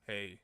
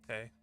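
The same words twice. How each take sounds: First: It is said in a deep voice. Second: It is said in a high voice.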